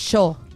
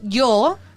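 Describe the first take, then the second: First: The word begins with a sh sound. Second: The word begins with a y sound. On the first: This is how it is said in Argentina. "in Argentina, they say yo" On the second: This is how it is said in Chile. "In Chile, we say yo"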